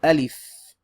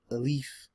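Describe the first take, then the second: First: Alif loud and clear with an open a, aa-lif; correct pronunciation. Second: Alif with a weak, swallowed first vowel, uh-lif; wrong pronunciation. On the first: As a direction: model the correct Alif firmly. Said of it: "but the correct pronunciation is". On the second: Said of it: "You'll hear some people say Alif". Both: Shown as a demonstration.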